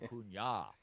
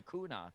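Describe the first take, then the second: First: The middle consonant is an 'ny' sound. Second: The middle consonant is a plain 'n' sound. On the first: The speaker calls it right. "It is "ya" at the end" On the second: The speaker calls it wrong. "you keep saying Acuna, you sound like a moron"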